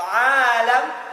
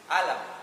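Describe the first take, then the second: First: The first vowel is long. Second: The first vowel is short. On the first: It means the world. "Kalau alam, earth, apa itu? Ya, dunia" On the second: It means disease or pain. "Alam itu apa artinya? Penyakit"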